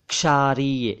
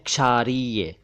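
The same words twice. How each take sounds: No difference in how they are said.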